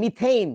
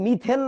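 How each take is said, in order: First: মিথেইন with a gliding "ey"; correct English pronunciation. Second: মিথেন with a plain short e; Bangla-style pronunciation. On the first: Teacher giving the actual name, মিথেইন as "mi-theyn". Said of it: "actually নামের উচ্চারণটা হচ্ছে মিথেইন". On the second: Teacher rejecting the Bangla reading, মিথেন as "mi-then". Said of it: "এটার নাম কিন্তু মিথেন না". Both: Shown as a demonstration.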